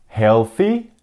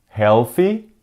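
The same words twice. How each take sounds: No difference in how they are said.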